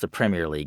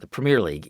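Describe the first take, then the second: First: Premier is given a British pronunciation. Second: Premier is given an American pronunciation. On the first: "pronounced the Premier League in the U K" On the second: "on U S T V"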